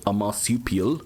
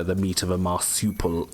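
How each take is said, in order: First: Lightly South African "marsupial", lips pursed; South African accent. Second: Said in the usual way. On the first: Shown as a demonstration. Gamer musing about kangaroo meat in a light South African accent. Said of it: "that's South African". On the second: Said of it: "I actually said it a bit like an Australian".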